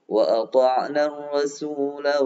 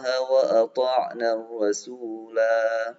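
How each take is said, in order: First: The final vowel of rasula is short, flowing on. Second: The final vowel of rasula is drawn out long. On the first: The reading continues into the next verse. "Tapi kalau disambung" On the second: The reading stops at this word.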